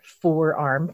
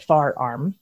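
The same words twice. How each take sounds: First: Said in the usual way. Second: Forearm said as "far arm"; Philly-area pronunciation. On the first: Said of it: "cause they, we say it far arm". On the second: Shown as a demonstration. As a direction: say FAR in place of FORE in far arm. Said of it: "we say it far arm".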